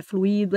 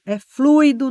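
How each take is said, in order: First: Fluido split flu-I-do, stress on the i; wrong pronunciation. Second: Fluido said FLUI-do, ui as one gliding diphthong; correct pronunciation. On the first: Teacher shows students the mistaken fluido, stress on i. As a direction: break fluido into flu-i-do, leaning on i. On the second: Teacher models fluido for students, ui as one syllable. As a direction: keep the ui in fluido together. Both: Shown as a demonstration. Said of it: "não é fluido".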